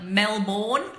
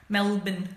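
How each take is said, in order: First: "Melbourne" said as Mel-born, slow, full second syllable; full spelling pronunciation. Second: "Melbourne" clipped to Mel-bin, reduced ending; local Aussie way. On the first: Showing viewers the spelled-out "Melbourne" slowly. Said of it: "It's actually pronounced Melbourne". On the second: Aussie showing viewers how locals say "Melbourne". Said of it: "but we call it Melbin". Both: Shown as a demonstration.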